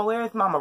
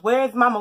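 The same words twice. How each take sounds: First: Retold anxious second call; worried repeat. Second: Higher, louder panicked call for mama; retold panicked call; frantic search. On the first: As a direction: ask again under the breath, worried. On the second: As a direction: call through the house for mom. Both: Running around looking for mom.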